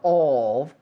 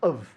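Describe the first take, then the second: First: The word is said with a full vowel. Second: The word is said quickly with a reduced vowel.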